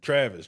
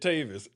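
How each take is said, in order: First: An R sound follows the first T. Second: There is no R sound after the T. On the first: The speaker calls it wrong. "most people just gloss over it and Travis" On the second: The speaker calls it right. "you just said Tavis"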